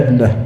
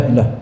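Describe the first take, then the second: The two takes are said the same way.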